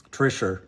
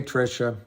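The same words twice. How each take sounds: First: Trisher, with an r sound at the end; London pronunciation. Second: Said in the usual way. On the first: Shown as a demonstration. Showing viewers how London says Trisha, as Trisher. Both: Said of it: "That's how they say Trisha in London".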